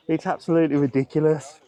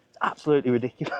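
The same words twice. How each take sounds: First: Said in the usual way. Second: Laughing disbelief. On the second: Real, not acted. Laughing rant.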